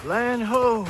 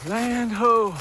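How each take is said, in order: First: High, loud call of a lookout; shouting from crow's nest. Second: High, loud lookout call repeated; shouting from crow's nest. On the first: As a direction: sing out like a sailor sighting land. Spotting the road from ridge. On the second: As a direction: call it out again like a sailor. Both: Pretend.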